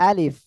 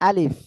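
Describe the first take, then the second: The two takes are said the same way.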